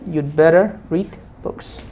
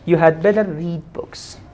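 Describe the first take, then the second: First: The word 'had' is shortened to a 'd' sound. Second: The word 'had' is said in full.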